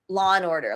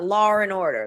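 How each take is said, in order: First: No R sound links law to and. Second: An R sound links law to and. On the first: "with my American English accent" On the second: "an intrusion of an R"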